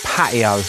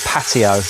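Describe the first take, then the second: First: The T sound in the middle is dropped. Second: The T sound in the middle is pronounced. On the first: "I sounded very Essex then... we don't very often pronounce the letter T" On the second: "not patio"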